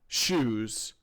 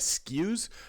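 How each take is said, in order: First: The word begins with an sh sound. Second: The word begins with an sk sound. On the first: The speaker calls it right. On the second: The speaker calls it wrong.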